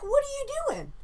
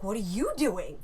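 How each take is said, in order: First: High, put-on voice for the intruder; Russian intruder. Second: Said in the usual way. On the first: Intruder on the toilet asks the woman, high mock voice. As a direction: toss the question back casually in a high voice. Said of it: "And he's like". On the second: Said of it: "I'm like".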